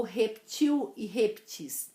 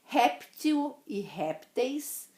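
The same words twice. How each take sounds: First: "reptil e reptis" as rep-TIL, rep-TIS; "reptil e reptis" with stressed final i; stress on last syllable. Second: "Réptil e répteis" with high, slow RÉP; "Réptil e répteis" stressed at the start; stress on first syllable. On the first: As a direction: land slowly on the endings of "reptil e reptis". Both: Shown as a demonstration. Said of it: "Existem as duas pronúncias".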